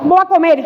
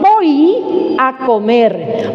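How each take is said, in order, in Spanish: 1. Las palabras se pegan unas con otras y cuesta entenderlas. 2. Cada palabra se articula con claridad, con la boca bien abierta. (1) "No se entiende" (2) "Acentúela ahí"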